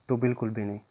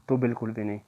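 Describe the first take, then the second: The two takes are said the same way.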